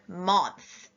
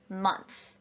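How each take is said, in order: First: The vowel is said as an open ah sound. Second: The vowel is said as a short uh sound. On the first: The speaker calls it wrong. "they would have tried ah" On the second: The speaker calls it right. "they wrote month in the uh column"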